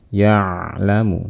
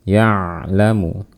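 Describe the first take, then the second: The two takes are said the same way.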